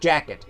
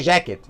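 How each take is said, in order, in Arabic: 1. الصوت الأول بيبدأ بصوت شبه الدال. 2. الصوت الأول ما فيهوش بداية شبه الدال. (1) "تحس ان في حرف الدال بيتقال في الاول" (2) "ما تقولش جاكيت"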